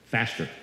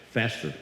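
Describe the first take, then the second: No difference in how they are said.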